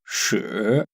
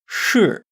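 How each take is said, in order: First: The pitch does not fall sharply from high to low. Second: The pitch falls sharply from high to low. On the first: The word means poo. "if I change the tone, 是 means poo" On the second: The word means yes. "The pitch falls from high to low"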